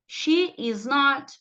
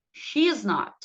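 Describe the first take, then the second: First: SHE IS NOT slow, word by word; model pronunciation. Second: SHE IS NOT run together as "she's not", falling; linked pronunciation. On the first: (pronúncia modelo, bem lenta) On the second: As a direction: link "she is" into one syllable. (pronúncia contraída) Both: Shown as a demonstration. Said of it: "vão repetindo aí comigo".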